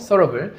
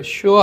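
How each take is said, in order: First: The middle syllable sounds like 'ser'. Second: The middle syllable sounds like 'sure'. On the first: The speaker calls it right. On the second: The speaker calls it wrong. "sure 아니고"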